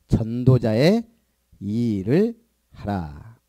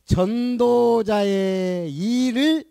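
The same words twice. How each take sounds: First: 전도자의 rising, then 일을 하라 very slow and low; stress on 일을. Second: 일을 drawn out very slow with a rising tune; stress on 일을. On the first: Pastor repeating the verse slowly for the congregation. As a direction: spell out 일을 하라 slowly. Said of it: "뭐 해라고?". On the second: Pastor emphasizing the verse to the congregation, slow stress. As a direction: lean hard on 일을, slowly. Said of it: "pastor stresses the key phrase". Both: Shown as a demonstration.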